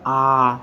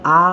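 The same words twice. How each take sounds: First: The vowel is drawn out longer. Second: The vowel is held only briefly. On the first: "मतलब लंबा उच्चारण है" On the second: "यहाँ पर short आ, यहाँ पर केवल आ"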